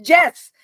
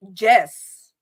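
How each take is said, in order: First: "Jess" said loud as "yes" in a Southern accent; accent slipping out. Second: "Jess" read as written, with a hard J. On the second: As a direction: say "Jess" as the name, J like "jam". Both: Shown as a demonstration. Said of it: "there's the accent coming out".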